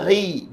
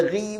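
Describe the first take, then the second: First: Ri with a slightly thickened ghain, tongue root still raised; moderately thick. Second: Ri thinned out, tongue root dropped; wrong ri. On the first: Teacher models ghain with kasrah, medium-thick demo. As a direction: ease the thickness of Ri without losing it. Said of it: "iaitu baris di bawah". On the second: Teacher warns against this reading, thin wrong demo. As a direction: let ri lose all its thickness. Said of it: "jangan dibaca ri pula". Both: Shown as a demonstration.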